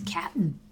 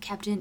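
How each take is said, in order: First: The word is clipped to cap'n, dropping the t. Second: The word is said in full as captain. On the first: The speaker calls it right. "it's like C-A-P-N" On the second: The speaker calls it wrong. "It's not Captain"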